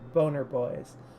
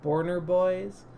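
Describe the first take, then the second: First: No r sound follows the first vowel. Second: An r sound follows the first vowel. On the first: The speaker calls it right. "it is in fact Boner Boys" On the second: The speaker calls it wrong. "I keep calling this Borner Boys"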